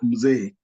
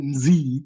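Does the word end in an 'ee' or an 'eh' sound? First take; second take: eh; ee. First: The word ends in a long 'eh' sound. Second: The word ends in an 'ee' sound. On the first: The speaker calls it right. "In Swahili, it retains its A as mzee" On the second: The speaker calls it wrong. "you'll say mzee instead of"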